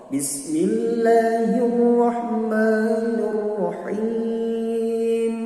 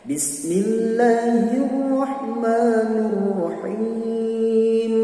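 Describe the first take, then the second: The two takes are said the same way.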